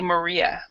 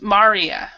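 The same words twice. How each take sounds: First: The name is said with English sounds. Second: The name is said with Finnish sounds. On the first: "In English, we say Maria" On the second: "In Finnish, we say ... No, it's Maria"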